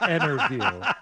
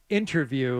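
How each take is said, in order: First: The t after the n is dropped. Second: The t after the n is clearly pronounced. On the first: The speaker calls it wrong. "not interview" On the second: The speaker calls it right. "it's pronounced interview"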